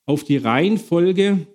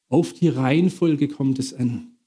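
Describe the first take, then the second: First: Slow, with Reihenfolge lifted and weighted; "Reihenfolge" drawn out as the key word; stress on Reihenfolge. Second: Said in the usual way. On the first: Shown as a demonstration. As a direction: lean hard on "Reihenfolge" and take it slowly.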